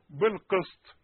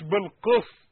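First: بالقسط heavy and thick; wrong reading. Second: بالقسط clean, light; correct reading. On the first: Teacher shows the error. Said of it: "ما تنفعش". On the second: Teacher gives the right form. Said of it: "مش بالقسط". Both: Shown as a demonstration.

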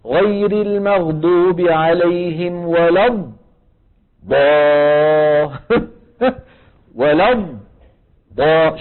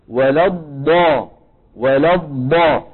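First: ولا الض cut off into silence; slow, clipped ولا الض with a gap; mocking wrong reading. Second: ولا الض with the ض sound carried on; ض in ولا الض kept flowing, no gap; slow ولا الض held smoothly; correct ض demo. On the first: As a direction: imitate the ض stopped short in ولا الض. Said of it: "بيقول لك". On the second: Shown as a demonstration. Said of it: "ما في فراغ هون".

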